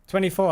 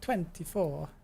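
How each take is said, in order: First: It is said in the speaker's plain accent. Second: It is said in a put-on Italian accent.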